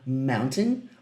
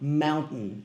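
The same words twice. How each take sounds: First: The middle t is clearly released. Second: The middle t is swallowed in the throat. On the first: "Algumas pessoas leem como mountain" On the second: "Como se tivesse um G engolido no meio da pronúncia"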